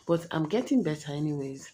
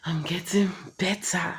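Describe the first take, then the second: First: Said in the usual way. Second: Whispered. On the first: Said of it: "repeats it whispered". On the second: Shown as a demonstration. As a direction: breathe the words out. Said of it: "repeat of line 72".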